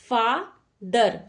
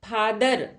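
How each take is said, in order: First: The first consonant is an f sound. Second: The first consonant is an aspirated p sound. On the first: The speaker calls it right. "फ के नीचे नुक्ता लगेगा" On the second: The speaker calls it wrong. "फादर कोई शब्द नहीं होता"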